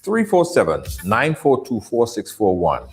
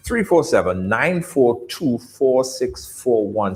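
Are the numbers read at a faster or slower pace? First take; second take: faster; slower. First: The numbers are read at a normal, quicker pace. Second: The numbers are read at a slower pace.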